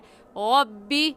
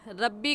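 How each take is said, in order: First: The r sound is heavy, with rounded lips. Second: The r sound is light, without rounded lips. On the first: The speaker calls it right. "सही है रब्बी" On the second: The speaker calls it wrong. "रब्बी रब्बी कहना गलत है"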